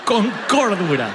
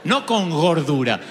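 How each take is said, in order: First: "cordura" said slowly, with a clear C and stress on -DU-; correct cordura. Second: "gordura" said slowly with a clear hard G, as a pun; gordura for cordura. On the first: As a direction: settle back on "cordura", clean and slow. ("cordura" despacio, con C clara y acento en -DU-) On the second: ("gordura" despacio, con G bien marcada) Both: Shown as a demonstration. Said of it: "te miras con cordura".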